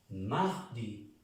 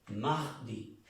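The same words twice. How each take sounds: The two takes are said the same way.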